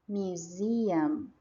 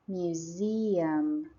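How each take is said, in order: No difference in how they are said.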